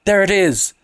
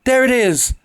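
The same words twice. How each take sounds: First: High shrill cry of alarm. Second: Even higher piercing shriek; shriller cry. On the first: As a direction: cry out at what she sees. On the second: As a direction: scream it, as high as she can go. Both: A narrator's reading. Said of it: "she uttered a shrill cry".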